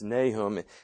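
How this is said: The name is pronounced the English way. "In English, it's Nahum"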